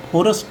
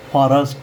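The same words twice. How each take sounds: First: फॉरेस्ट with a round "o", phorast; wrong pronunciation. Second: फॉरेस्ट with open "aa", phaarast; corrected pronunciation. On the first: Teacher repeats the form to avoid, wrong pronunciation. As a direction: say फॉरेस्ट starting "pho". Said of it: "फॉरेस्ट नहीं बोलेंगे". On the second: Teacher repeats the form to use, corrected pronunciation. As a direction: say फॉरेस्ट starting "phaa". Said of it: "फॉरेस्ट बोलेंगे". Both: Shown as a demonstration.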